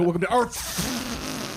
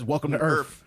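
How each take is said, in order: First: The final f-like sound is strongly exaggerated. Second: The final f-like sound is light and brief. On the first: The speaker calls it wrong. "He doesn't go" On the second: The speaker calls it right. "He just says"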